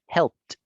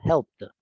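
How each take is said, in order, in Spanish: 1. La palabra termina en un sonido T sordo. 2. La palabra termina en un sonido D sonoro. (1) "no me impide pronunciarlo con una T" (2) "no terminando en T, sino en D ... Es difícil"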